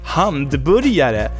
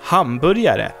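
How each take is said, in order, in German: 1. Das Wort beginnt mit dem Laut 'hand'. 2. Das Wort beginnt mit dem Laut 'ham'. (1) "die sagen ja Hamburgare, also Handburger" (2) "Das Wort ist Hamburgare"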